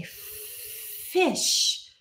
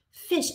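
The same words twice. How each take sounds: First: "Fish," whispered, with a long f; whispered sound demo. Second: Said in the usual way. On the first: Shown as a demonstration. Teacher whispering "Fish," to isolate the f sound. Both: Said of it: "I'm only paying attention to the sound".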